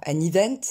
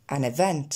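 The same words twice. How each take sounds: First: "event" opening on a long French ee; wrong vowel. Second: "event" opening on a short è-like sound; correct vowel. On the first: Teacher showing what is not said, mispronunciation. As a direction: say "event" as ee-vent. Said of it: "On ne dit pas". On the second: Teacher correcting with the E sound, correct pronunciation. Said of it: "C'est bien le son E". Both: Shown as a demonstration.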